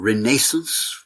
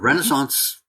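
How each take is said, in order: First: Renaissance is said with a British pronunciation. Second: Renaissance is said with a non-British pronunciation.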